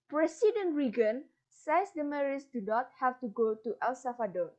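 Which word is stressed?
Reagan. The stress falls on the name Reagan.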